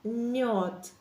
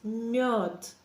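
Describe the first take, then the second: First: The soft m flows straight into the o vowel. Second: The soft m flows straight into the o vowel.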